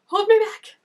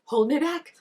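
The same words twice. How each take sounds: First: High, loud hold me back; hammed-up rage at the screen; loud mock threat; mock furious yell. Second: Said in the usual way. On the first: Mock fight at character.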